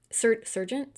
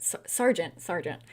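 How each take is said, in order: First: "sergeant" tried with an "ser" sound, asking; testing "sergeant" as sər-jent, rising like a question; unsure pronunciation. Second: "sergeant" said with "sar", settling on it; corrected pronunciation. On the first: Checking how to say the officer's rank, "sergeant" with "ser", unsure. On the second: Fixing the rank's pronunciation to "sar", "sergeant", settled. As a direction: correct to "sergeant" as sar-jent, falling and final. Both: Shown as a demonstration.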